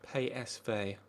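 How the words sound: The letters are said with Dutch pronunciation. The speaker calls it right. "Is that how it's pronounced in uh, in Dutch or in the Netherlands?"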